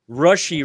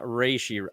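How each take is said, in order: First: The first vowel sounds like 'uh'. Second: The first vowel sounds like 'ay'. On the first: The speaker calls it right. "Rushy rice" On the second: The speaker calls it wrong. "not reishi"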